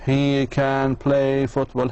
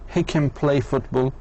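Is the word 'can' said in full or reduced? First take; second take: full; reduced. First: The word 'can' is said in full, slowly. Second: The word 'can' is reduced to a weak schwa. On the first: The speaker calls it wrong. "مش he can play football. هيك بتاخذ ثلاثين ثانية" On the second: The speaker calls it right. "دائما اعتمد على المختصرات"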